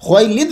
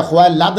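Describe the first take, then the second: First: खुवैलिद with a short i under the lam; correct pronunciation. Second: खुवैलाद said with a long a in the last syllable, the wrong way; wrong pronunciation. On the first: Teacher giving students the right reading, खुवैलिद with short i. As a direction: say खुवैलिद with a clear short i before the final d. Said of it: "लाम के नीचे ज़ेर है". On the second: Teacher showing students the wrong reading, खुवैलाद with aa. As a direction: say खुवैलाद with a broad aa before the final d, as the mistake. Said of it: "खुवैलाद नहीं पढ़ना". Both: Shown as a demonstration.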